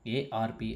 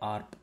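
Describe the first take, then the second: First: It is spelled out letter by letter. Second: It is said as a single word. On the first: The speaker calls it wrong. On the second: The speaker calls it right. "Just ఆర్ప్ అనండి"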